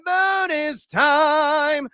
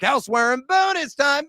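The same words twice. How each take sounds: First: Drawn-out shout. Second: High, raised announcement of the segment; announcer call. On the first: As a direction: stretch bonus time out like a game-show jingle. Echoing the segment name. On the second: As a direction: bring in bonus time with energy. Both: Acted.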